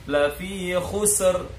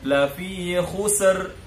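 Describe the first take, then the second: The two takes are said the same way.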